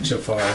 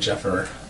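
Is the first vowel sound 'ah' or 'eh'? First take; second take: ah; eh. First: The first vowel sounds like 'ah'. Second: The first vowel sounds like 'eh'. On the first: "Jafar instead of Jeffer" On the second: "instead of Jeffer"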